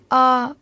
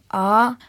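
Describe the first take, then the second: First: The syllable is said in the level first tone. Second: The syllable is said in the rising second tone. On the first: "спокойно первым тоном" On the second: "вторым"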